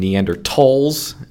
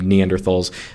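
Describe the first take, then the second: First: The middle consonant is a plain 't' sound. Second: The middle consonant is an English 'th' sound. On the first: It follows the original German pronunciation. "pronouncing the TH as a T because it's based on the German pronunciation" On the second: It is the everyday common pronunciation. "I use the working man's pronunciation"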